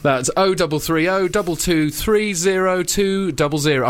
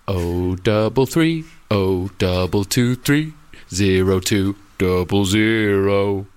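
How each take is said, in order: First: The number is said at normal speed. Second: The number is said slowly.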